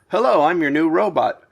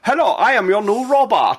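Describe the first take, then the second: First: It is said in a plain, normal voice. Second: It is said in a weird European robot accent.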